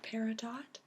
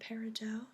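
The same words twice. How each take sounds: First: The word ends with a sounded t. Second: The word ends in an o with silent t. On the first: "is sometimes called peridot" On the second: "I personally prefer uh, the pronunciation peridot uh, because it comes from the French"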